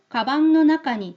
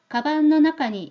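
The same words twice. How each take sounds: First: The final nasal before 'no' sounds like 'ng'. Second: The final nasal before 'no' sounds like 'n'. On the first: The speaker calls it wrong. "우린 이렇게도 발음이 됩니다" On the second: The speaker calls it right. "노 앞에서는 자연스럽게 니은이 돼버려요"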